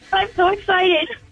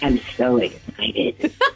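First: It is said in her normal voice. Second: It is said in a put-on Batman voice.

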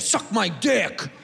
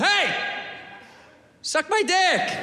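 First: It is said in a hostile, negative tone. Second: It is said in a nice, friendly tone.

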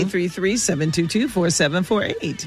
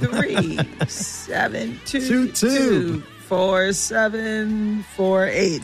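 First: The number is read at normal pace. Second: The number is read slowly.

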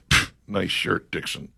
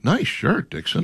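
First: It is said in a sarcastic, mocking tone. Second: It is said in a sincere, genuine tone.

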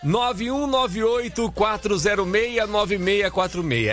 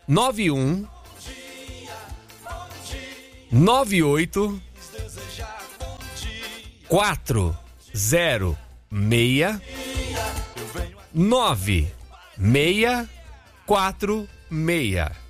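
First: The number is said quickly in one go. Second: The number is said slowly, digit by digit.

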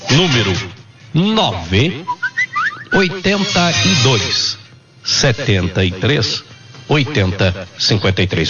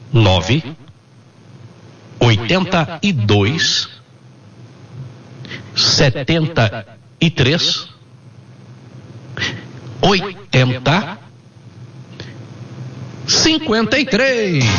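First: It is read at normal speed. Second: It is read slowly and carefully.

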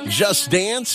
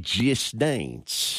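First: It is said in a plain accent. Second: It is said in an East Kentucky accent.

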